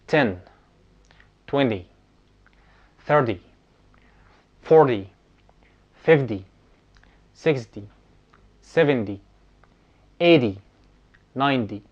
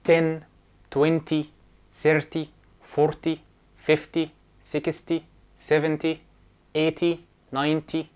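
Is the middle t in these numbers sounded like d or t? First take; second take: d; t. First: The middle t is pronounced like a soft d. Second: The middle t is pronounced as a clear t. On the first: The speaker calls it right. "لكن النطق الصحيح ايه؟" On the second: The speaker calls it wrong. "وهم للأسف يعني علمونا بالطريقة ديت"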